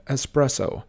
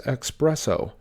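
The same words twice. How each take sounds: First: Espresso with an s, es-PRESS-o; correct pronunciation. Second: Espresso said ex-PRESS-o; common mispronunciation. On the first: Teacher showing viewers the right way. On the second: Teacher showing viewers the wrong way. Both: Shown as a demonstration. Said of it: "often mispronounced as espresso".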